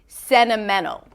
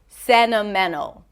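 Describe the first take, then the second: First: The T after the N is dropped. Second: The same.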